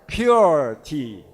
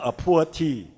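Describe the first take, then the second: First: The first word sounds like pure. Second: The first word sounds like poor. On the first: The speaker calls it right. "So say it like a pure tea" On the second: The speaker calls it wrong. "with your typical intonation, it may become a poor tea"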